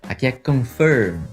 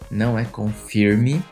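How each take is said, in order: First: The word ends on the M sound. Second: The word ends with an added vowel sound. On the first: The speaker calls it right. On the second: The speaker calls it wrong.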